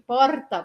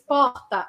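First: The R is made with the tongue tip. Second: The R is a scratchy sound in the throat. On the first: "jeito 1, que é o meu jeito, porta, porta, que seria aqui na pontinha da minha língua" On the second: "jeito 3, porta, arranhado"

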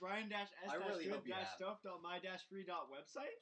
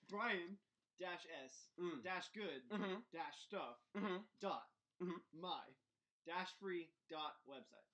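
First: It is said at a fast pace. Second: It is said at a slow pace.

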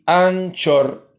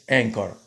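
First: It is said with Spanish sounds, as spelled. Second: It is said with English sounds. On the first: "en español sería Anchor, se pronuncia así, Anchor, tal y como se escribe" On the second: "en inglés Anchor"

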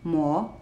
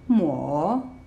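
First: The pitch starts lower and rises. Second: The pitch dips down and then rises. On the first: "starts a little bit lower than the first tone and goes up, rising" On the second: "goes down, and then goes up"

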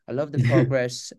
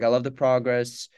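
First: It is said in a put-on British accent. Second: It is said in the speaker's normal accent.

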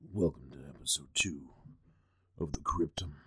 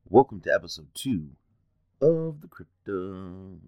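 First: It is said in a harsher, less friendly tone. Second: It is said in a friendly, nice tone.

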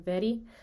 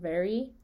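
First: The r is a quick single tap. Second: The r is a smooth approximant without contact. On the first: "See how the tongue tip just kind of goes to the front of where the T and D would be and just kind of flaps once" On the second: "very in American English"

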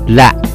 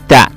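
First: The word begins with an l sound. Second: The word begins with a th sound. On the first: The speaker calls it wrong. "或是L 的音" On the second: The speaker calls it right. "咬着舌尖念的"

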